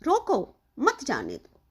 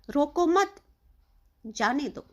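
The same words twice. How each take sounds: First: High, punched „रोको”, short break, then „मत जाने दो” run together and falling; pauza po „रोको”. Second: Group „रोको मत” together, break, then release „जाने दो”; pauza po „मत”. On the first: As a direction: stop right after „रोको”, join „मत” to „जाने दो”. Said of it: "रोको के बाद लगाया गया है". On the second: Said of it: "इसको रोको मत, इसको जाने दो". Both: Shown as a demonstration.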